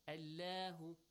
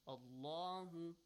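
First: The L sound is pronounced light and thin. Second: The L sound is pronounced heavy and full. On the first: The speaker calls it wrong. "Not lightly, not Allahu, no" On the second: The speaker calls it right.

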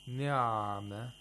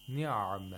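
First: The ayin sound is held too long. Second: The ayin sound is held a medium time. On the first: The speaker calls it wrong. "you're spending too much time on the ayin" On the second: The speaker calls it right. "It should be in between"

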